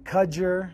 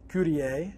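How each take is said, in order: First: The name is said with plain English sounds. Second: The name is said with French-style sounds. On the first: "I've been I've been" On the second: "I've been French"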